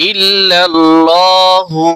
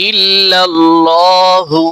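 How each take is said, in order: No difference in how they are said.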